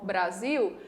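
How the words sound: The final L sounds like a U. "nós aqui no Ceará ou na maior parte do Brasil pronunciamos"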